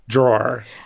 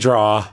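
First: The word ends with an r sound. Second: The word ends without an r sound. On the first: The speaker calls it right. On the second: The speaker calls it wrong. "Don't say draw"

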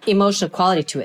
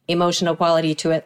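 First: It is said with natural varying pitch. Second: It is said flat, like a robot.

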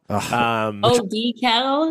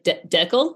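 First: It is said the American way. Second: It is said the Canadian way. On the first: The speaker calls it wrong. "they think it's decal. ... That's so much worse" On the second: The speaker calls it right. "Like Deckel? ... Yes, exactly"

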